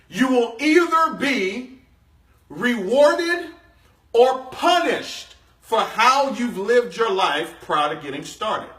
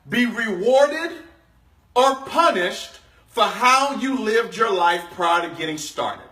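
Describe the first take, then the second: First: It is said slowly. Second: It is said at normal speed.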